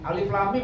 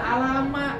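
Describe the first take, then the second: First: Each letter name is said separately. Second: The letters are run together as one word.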